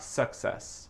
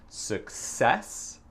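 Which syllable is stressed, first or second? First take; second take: First; Second. First: The stress is on the first syllable. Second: The stress is on the second syllable. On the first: The speaker calls it wrong. "c'est pas success" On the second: The speaker calls it right. "le deuxième syllabe, c'est l'accent tonique"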